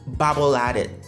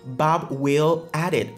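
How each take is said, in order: First: The words run together as one block. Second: Each word is said separately and fully.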